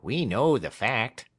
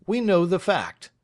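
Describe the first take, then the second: First: Dry echo, slower, less lifted; the partner parroting his colleague; Craggs echoing. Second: Much higher and louder, emphatic on we; Snitchey settles it firmly; Snitchey asserting. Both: Acted. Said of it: "repeated Craggs".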